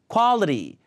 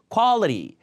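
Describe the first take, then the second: No difference in how they are said.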